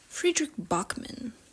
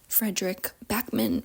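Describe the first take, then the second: First: The name is said with a slight Swedish accent. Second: The name is said in a plain English accent.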